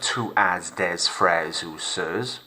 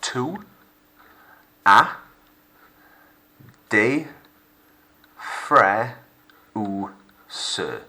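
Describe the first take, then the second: First: The final letters of the words are sounded out. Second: The final letters of the words are left silent. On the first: The speaker calls it wrong. "instead of" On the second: The speaker calls it right. "Your general rule is the last letter is silent"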